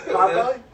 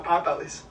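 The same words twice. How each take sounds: First: Potbelly said without the final s; Potbelly, dropping the s, questioning rise; corrected name. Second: Potbelly's said with an s added at the end; Potbelly's with a hissed final s; wrong name. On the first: Shown as a demonstration. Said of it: "'cause I said the S on there?". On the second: Real, not acted. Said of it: "you gotta say the name right".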